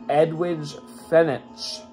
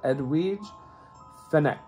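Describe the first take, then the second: First: The name is read with English spelling sounds. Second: The name is read with Italian spelling sounds. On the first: The speaker calls it wrong. "If you just read it phonetically in English" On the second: The speaker calls it right. "in Italian, you would pronounce that"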